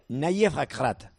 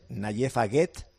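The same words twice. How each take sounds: First: The name is said as a Moroccan speaker says it. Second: The name is read with Spanish spelling sounds. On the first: "me dijo que se pronuncia" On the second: "lo leemos y es Nayef Aguet, si lo lees fonético español"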